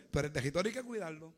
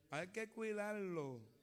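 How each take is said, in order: First: Said in the usual way. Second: Drawn out and soft, each word weighed; preacher repeats the warning to the congregation, slow and soft; slow soft emphasis. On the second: Shown as a demonstration. Let the words sink in, slowly and softly.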